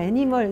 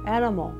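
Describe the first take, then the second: First: Every syllable is said equally strong. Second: Only the first syllable is strong. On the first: The speaker calls it wrong. "막 애니멀 이러는데" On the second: The speaker calls it right. "앞에 들어가요"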